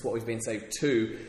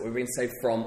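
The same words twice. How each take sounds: First: "to" held long and falling at the end; stress on to. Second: "from" leaned on at the end; stress on from. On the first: Preacher contrasting saved from and saved to, stress on "to". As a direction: put the weight on "to". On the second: Preacher contrasting saved from and saved to, stress on "from". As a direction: land the weight on "from". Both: Shown as a demonstration. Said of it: "or the emphasis".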